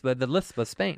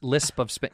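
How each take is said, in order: First: "lisp" said with a th for the S. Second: Said in the usual way. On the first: Shown as a demonstration. Showing co-host the Spanish lisp, "lisp" said as "lithp". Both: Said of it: "now say lisp".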